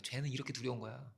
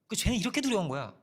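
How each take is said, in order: First: Quieter, lower warning; soft warning. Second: Louder, higher, stress on 두려운; emphatic warning. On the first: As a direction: say it hushed, like a secret warning. Preacher voicing scripture's warning. (조용하고 낮게 경고하듯) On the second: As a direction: hit 두려운 hard and declare it. (두려운을 크고 높게 힘주어) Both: Shown as a demonstration.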